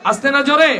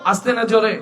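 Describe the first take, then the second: First: Higher, louder rousing ask; rousing repeat to crowd. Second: Said in the usual way. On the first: Real, not acted. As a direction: fire the question back hard.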